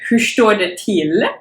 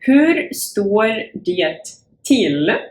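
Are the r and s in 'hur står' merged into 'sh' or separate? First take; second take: merged; separate. First: It is said fast, with r and s merged into sh. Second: It is said carefully, with r and s separate.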